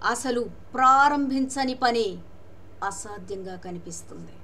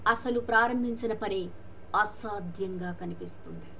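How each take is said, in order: First: The word ప్రారంభించని is strongly emphasized. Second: No word is given special emphasis.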